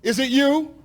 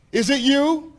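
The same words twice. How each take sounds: The two takes are said the same way.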